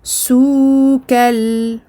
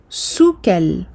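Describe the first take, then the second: First: The vowel before kal is drawn out long. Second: The vowel before kal is kept short. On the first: The speaker calls it wrong. "et non pas soukal" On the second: The speaker calls it right. "je dois entendre soukal"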